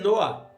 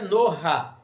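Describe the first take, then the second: First: The word ends in a vowel with no guttural. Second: The guttural sound comes before the final vowel. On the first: "nem noa" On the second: "Não é noha"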